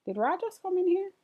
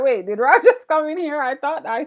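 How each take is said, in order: First: Quick, high startled question; suddenly spotting someone come in; quick surprised double take. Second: Louder, laughing replay of the moment; laughing retold surprise; laughing retelling. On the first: Real, not acted. Noticing someone in the room. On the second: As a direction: retell your own surprise through a laugh. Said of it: "I was like".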